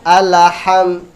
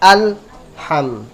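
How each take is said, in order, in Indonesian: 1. Bunyi l ada pantulannya. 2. Bunyi l datar, tidak memantul.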